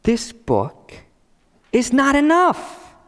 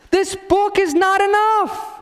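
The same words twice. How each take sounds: First: Mock shout rising in pitch at the end; imitated shout, climbing to a high finish. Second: Very high, strained mock yell; obnoxious, high-pitched imitated shouting; louder shout. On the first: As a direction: start level, then yell the last words high. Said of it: "And they shout". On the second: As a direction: yell the whole line at top pitch. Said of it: "then they say it louder".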